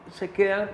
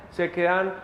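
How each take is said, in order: Both takes have the same delivery.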